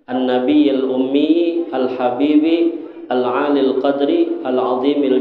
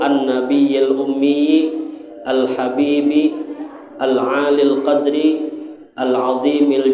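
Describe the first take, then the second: First: The phrase runs on without any pauses. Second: The phrase is broken by pauses between parts. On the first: "Bisa juga dibaca langsung seterusnya tuh" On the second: "koma-komanya pas, kalau pian membaca hendak bawa wakaf-wakaf lah"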